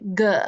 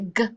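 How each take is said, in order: First: The G sound ends with an added uh vowel. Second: The G sound is cut off with no vowel. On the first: The speaker calls it wrong. "don't say G and add that where it sounds like there's a U at the end" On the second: The speaker calls it right. "say G and cut it off"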